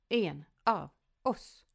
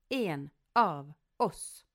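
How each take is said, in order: No difference in how they are said.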